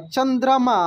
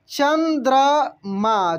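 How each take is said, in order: First: Said in the usual way. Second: चंद्रमा drawn out very slowly; slow spelling-out. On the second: Shown as a demonstration. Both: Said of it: "teacher models word slowly".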